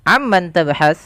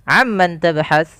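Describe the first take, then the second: The two takes are said the same way.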